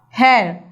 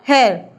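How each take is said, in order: First: The vowel is drawn out long. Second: The vowel is cut short. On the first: The speaker calls it right. "this O, E, A are prolonged sound" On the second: The speaker calls it wrong. "not hair"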